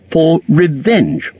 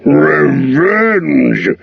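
First: Slow, drawn-out revenge from the small hobbit; a hobbit trying to sound bold; lightly defiant hobbit; Bilbo declaring revenge. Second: Dragon scoffs the word Revenge!; Smaug snorting. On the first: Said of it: "to keep his end up". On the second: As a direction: sneer it out like a mocking dragon. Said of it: "he snorted". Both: A narrator's reading.

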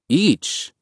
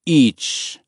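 First: "Each" high, as a taken-aback question. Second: "Each" as a falling, emphatic statement; firm statement. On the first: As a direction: query "Each" in a raised pitch, checking the price. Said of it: "Dad said". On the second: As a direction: say "Each" firmly as a price condition, higher than usual. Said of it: "the man said". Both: A narrator's reading.

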